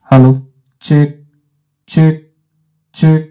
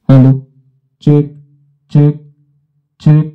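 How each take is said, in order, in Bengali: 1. কণ্ঠস্বরটি আরও উজ্জ্বল শোনাচ্ছে, ট্রেবল বাড়ানো হয়েছে। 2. কণ্ঠস্বরটি উজ্জ্বল শোনাচ্ছে, অতিরিক্ত বেস যোগ করা হয়েছে। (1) "আমি যদি ট্রেভেলটিকে বাড়াই" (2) "ট্রেভেলটিকে খাটিয়ে একটু বেস বাড়াই"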